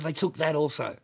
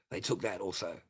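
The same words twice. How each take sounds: First: Higher, louder outraged repeat; loud mock indignation; loud indignant quote. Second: Said in the usual way. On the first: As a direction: punch it out like the angry mate. Repeats friend's line twice.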